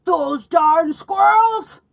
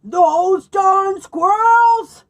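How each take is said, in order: First: Slow, loud, high shout with the words stretched out; angry old man yell. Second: Very slow, loud, high shout with the words drawn out; angry old man yell. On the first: Old man yelling at squirrels who stole the bird food, loud and slow. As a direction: shake your fist and bellow it. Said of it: "he shook his old man fist and yelled". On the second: Old man yelling at squirrels who emptied the feeders, loud and slow. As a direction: bellow it even bigger. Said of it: "Old Man Fookwire yelled". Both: Acted.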